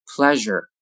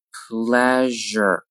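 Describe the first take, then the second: First: Said in the usual way. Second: "Pleasure" slowly with a held zh; slow careful "Pleasure"; drawn-out model. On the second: Shown as a demonstration. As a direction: stretch "Pleasure" out for learners. Teacher models word slowly, then normally.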